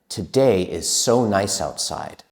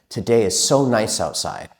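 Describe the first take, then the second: First: It is spoken at a faster pace. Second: It is spoken at the fastest pace. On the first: "Let's say it a little bit faster" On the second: "And a little bit faster"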